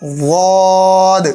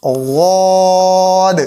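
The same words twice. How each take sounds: Both takes have the same delivery.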